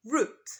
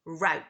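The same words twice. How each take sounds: First: Route rhyming with boot, root; British route. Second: Route rhyming with out, rowt; American route. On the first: Teacher models British route. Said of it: "in British English, we say". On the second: Teacher models American route. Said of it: "in American English, we say". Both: Shown as a demonstration.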